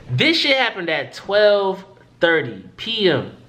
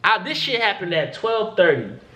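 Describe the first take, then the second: First: Slow, each word of "This shit happened at twelve thirty P M" weighted; slow emphatic restating. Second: Said in the usual way. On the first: Real, not acted. Telling how long the hospital wait was, slow and emphatic. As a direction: lean on the time, slowly, so it sinks in.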